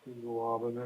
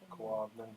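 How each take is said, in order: First: The G sounds are said separately and fully. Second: The G sounds merge into one K sound.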